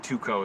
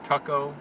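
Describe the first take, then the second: First: The name is said the Latin way. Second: The name is said the English way.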